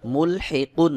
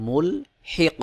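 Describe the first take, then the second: First: মুলহিকুন with the final "kun" fully voiced; full ending pronunciation. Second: মুলহিক stopped on a bouncing, echoed q, no "un"; qalqalah stop. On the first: Teacher reading the word before applying the pause, full ending pronunciation. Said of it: "কব দুই পেশ কুন". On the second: Teacher showing learners the correct pausal form, qalqalah stop. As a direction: end মুলহিক on a vowelless q with a small bounce. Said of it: "কফকে কলকলাহ করে উচ্চারণ করে পড়তে হবে". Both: Shown as a demonstration.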